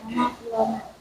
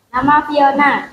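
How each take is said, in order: First: It is said quietly. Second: It is said loudly.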